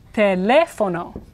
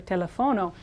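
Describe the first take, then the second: First: Teléfono slow, with LE punched as second syllable; stress on LE. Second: Telefono softer, stressed on the second-to-last syllable FO; wrongly placed stress. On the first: Teacher showing stress is here, slow teléfono stressed on LE. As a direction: hit the LE in teléfono. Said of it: "It's here". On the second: Teacher showing where stress should be, telefono stressed on FO. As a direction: say telefono with the stress moved onto FO. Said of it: "so stress should be here". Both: Shown as a demonstration.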